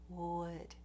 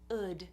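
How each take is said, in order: First: The word starts with a rounded w sound. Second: The word starts with a vowel, no w sound. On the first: The speaker calls it right. "make sure that you're doing a clear w" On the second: The speaker calls it wrong. "some people don't do the W at all"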